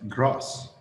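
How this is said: The vowel is long and open, British style. "but grass"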